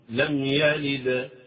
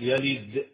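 First: The final d ends with a clean release. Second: The final d ends with a glottal catch. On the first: The speaker calls it right. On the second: The speaker calls it wrong.

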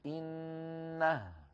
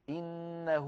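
First: The word ends on a bare h with no vowel. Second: The final h is followed by a long 'oo' vowel. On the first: The reader stops after the word. "فنقف بالهاء الساكنة" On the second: The word is joined to the words that follow. "فينطقون واوا"

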